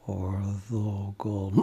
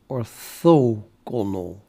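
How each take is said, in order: First: The stress is on the final syllable. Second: The stress is on the second syllable. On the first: The speaker calls it wrong. "it is emphasis even. So it is orthogonal" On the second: The speaker calls it right. "I'm pretty sure the emphasis is at, at, the, at the though"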